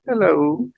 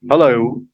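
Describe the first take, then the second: First: It is said in a quiet voice. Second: It is said in a loud voice. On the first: The person receiving the call is speaking. "lower voice" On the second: The person calling is speaking. "louder voice"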